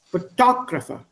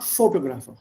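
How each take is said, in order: First: Photographer said fuh-TOG-ruh-fuh, stress on tog; English stress on Photographer; correct pronunciation. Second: Photographer said FOH-toh-graf-er, even syllables, Indian t; wrong pronunciation. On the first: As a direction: stress the second syllable of Photographer. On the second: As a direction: say photographer the wrong, flat-stressed way. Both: Shown as a demonstration. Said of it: "not photographer".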